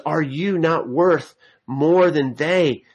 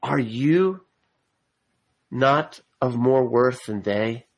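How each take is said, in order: First: Said in the usual way. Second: You rising and weighted, the rest slower; Are you not of more worth than they with you leaned on; stress on you. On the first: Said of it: "again is emphatic". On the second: Shown as a demonstration. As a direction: hit you, then slow down through the question. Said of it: "what's being emphasized is the "you".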